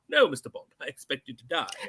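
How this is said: It is delivered casually and offhandedly.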